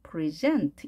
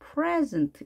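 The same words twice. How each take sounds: First: The stress is on the second syllable. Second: The stress is on the first syllable. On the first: "뒤에 이에 강세가 있어서" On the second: "앞에 강세가 있어서"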